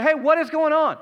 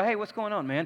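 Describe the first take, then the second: First: Higher, louder indignant hey. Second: Said in the usual way. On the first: Shown as a demonstration. Older son to the servant, indignant and louder. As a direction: demand it sharply, higher and louder. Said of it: "He's like". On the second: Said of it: "He didn't go".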